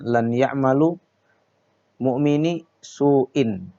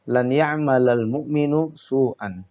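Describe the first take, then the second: First: The word mu'min ends with an i sound. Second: The word mu'min ends with a u sound. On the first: The speaker calls it wrong. "Tidak boleh dibaca" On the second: The speaker calls it right. "baris yang benar sesuai kaidahnya"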